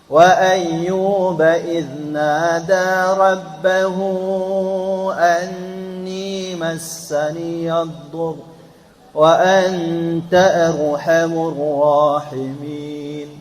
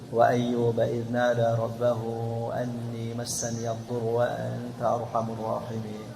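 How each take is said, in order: First: It is recited slowly and melodiously, drawn out. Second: It is recited at a quicker, plainer pace. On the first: "Kalau baca tartil boleh enggak? Boleh. Contoh" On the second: "jadi nanti bacanya kayak gini"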